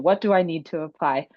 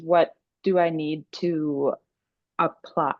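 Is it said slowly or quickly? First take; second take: quickly; slowly. First: It is said quickly. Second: It is said slowly.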